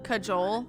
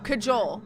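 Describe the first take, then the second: First: The J is said as an English J. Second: The J is said as an English J.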